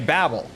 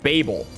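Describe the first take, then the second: First: It is said with an American pronunciation. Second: It is said with a British pronunciation. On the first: "if you're American, you'll say Babel" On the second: "U K English, that word is strictly pronounced Babel"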